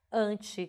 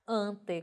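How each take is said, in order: First: "Anti" ending in I, "AN-tchi"; pronounced with I. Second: "Ante" slowly with a clear final E, hard T; careful spelling pronunciation. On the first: Teacher contrasting two prefixes, "Anti" ending in tchi. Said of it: "com I". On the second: Teacher contrasting two prefixes, "Ante" ending in E. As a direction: sound out "Ante" as AN-te. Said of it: "com E". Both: Shown as a demonstration.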